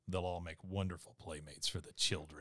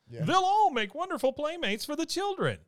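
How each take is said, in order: First: The line is said in a plain, natural voice. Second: The line is said in a put-on cartoon voice. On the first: "Or if you say it in a regular voice" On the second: "if you say it in a cartoon voice"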